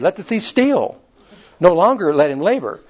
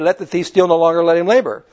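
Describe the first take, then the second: First: The pause comes after 'steal'. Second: The pause comes after 'longer'.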